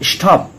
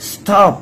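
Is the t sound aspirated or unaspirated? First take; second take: aspirated; unaspirated. First: The t is said with a puff of air. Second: The t is said without a puff of air. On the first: The speaker calls it wrong. "Not স্টপ, স্টপ বলা যাবে না" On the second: The speaker calls it right. "S এর পরে যদি টি আসে তাহলে টির উচ্চারণটাও কিন্তু টই হয়"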